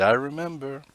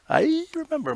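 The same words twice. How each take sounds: First: Said in the usual way. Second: "I remember." jumped far higher in a sing-song lilt. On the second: Shown as a demonstration. Echoing the tweet he wants from viewers, sung high. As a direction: chirp "I remember." up high like a cute echo.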